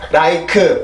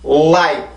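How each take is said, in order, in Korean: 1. 'like'는 평평하게, 강세 힘 없이 발음됩니다. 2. 'like'는 강하고 강세를 준 힘으로 발음됩니다. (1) "절대로 like, like 이렇게 발음을 해서는 절대로 안 됩니다" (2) "앞에 오 이라고 하는 강한 소리가 섞여 있어야 돼요"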